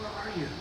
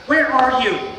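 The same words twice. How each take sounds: First: It is said in a tender, sorrowful tone. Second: It is said in a stern, scolding tone. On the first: The asker is heartbroken and longs for the other to return. "a loving dad going with a broken heart" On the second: The asker is annoyed and demanding an answer. "a mom with her hands on her hips saying"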